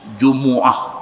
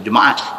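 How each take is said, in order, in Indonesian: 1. Suku kata kedua memiliki vokal u. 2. Suku kata kedua memiliki vokal a. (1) "Arab dia baca lagu tu" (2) "Dia tak baca Jumaat"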